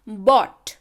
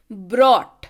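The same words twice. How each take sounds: First: "Bought" with the R left out entirely; no R sound. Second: "brought" with a clear R after the B; R sounded. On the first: Teacher showing students the difference by ear, "Bought" without R. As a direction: say "Bought" firmly, B straight into the vowel. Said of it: "यहाँ पे आर का उच्चारण नहीं है". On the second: Teacher showing students the difference by ear, "brought" with R. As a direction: say "brought" loud and firm, sounding the R. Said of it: "यहाँ पे आर का उच्चारण है". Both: Shown as a demonstration.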